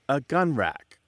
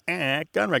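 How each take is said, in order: First: The article before gun is short and plain. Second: The article before gun is nasal and drawn out. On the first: "Instead of saying a gun" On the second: "he nasalizes it and stretches it out to emphasize it"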